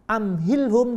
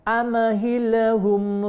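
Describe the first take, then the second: First: The m is closed with no added sound. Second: The m bounces with an added vowel sound. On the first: The speaker calls it right. "Am mestinya idhar" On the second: The speaker calls it wrong. "dibaca amahilhum"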